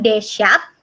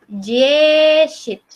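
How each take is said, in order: First: It starts with a hard d sound. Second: It starts with a soft j-like sound. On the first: The speaker calls it wrong. "bukan Deshat" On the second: The speaker calls it right. "tapi Jeshit"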